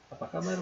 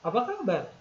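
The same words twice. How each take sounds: First: It is said softly, in a Sundanese manner. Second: It is said bluntly, in a Medan manner.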